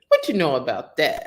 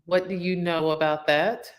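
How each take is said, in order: First: It is said in a put-on slangy voice. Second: It is said in a plain normal voice.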